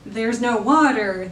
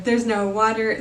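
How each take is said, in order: First: Slow, weighty "there's no water" with stress on water; slow emphasis. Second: Said in the usual way. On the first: Shown as a demonstration. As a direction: lean on "water", drawing it out.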